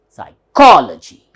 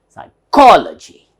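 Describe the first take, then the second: No difference in how they are said.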